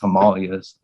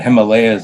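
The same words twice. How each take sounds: First: It is said the traditional, less common way. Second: It is said the everyday, common way. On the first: "The correct pronunci- pronunciation is Himalayas" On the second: "is what how most people pronounce it"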